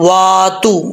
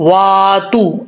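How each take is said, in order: No difference in how they are said.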